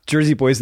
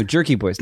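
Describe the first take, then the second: First: "Jersey" said with a z sound, not a k. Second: "Jerky" said with a hard k sound, not a z. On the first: Correcting his wife, names "Jersey" with a z as the wrong one. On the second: Correcting his wife, says "Jerky" with a clear k. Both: Shown as a demonstration. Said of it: "Not, not Jersey Boys".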